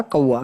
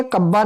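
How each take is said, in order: First: "कौवा" with au and v; v sound. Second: "कब्बा" with a doubled b. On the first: Teacher giving students the correction, कौवा with a v. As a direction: say कौवा as "kauva". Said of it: "ये होता है कौवा". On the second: Teacher showing students the mistake, कब्बा with hard double b. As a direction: say कब्बा as "kabba". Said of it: "कब्बा नहीं होता". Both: Shown as a demonstration.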